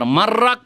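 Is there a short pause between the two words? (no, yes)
no. The words run together with no stop between them. The speaker calls it wrong. "আর মার রাখ পড়ে নেবেন একটা না, তাও চলবে না"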